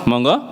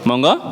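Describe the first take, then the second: No difference in how they are said.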